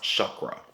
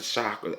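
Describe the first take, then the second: First: Chakra with "uh" in the first syllable; "shuck-ruh" for chakra; corrected chakra. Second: Chakra with "ah" in the first syllable; "shock-ruh" for chakra; mispronounced chakra. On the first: Shown as a demonstration. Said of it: "It's pronounced chakra". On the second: Real, not acted. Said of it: "I'm pronouncing it wrong".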